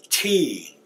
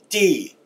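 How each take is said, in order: First: The consonant is released with a puff of air. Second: The consonant is released with the breath held back. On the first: "Not in the English, you'd say T, using some air" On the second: "But in the Muskogee, it's D"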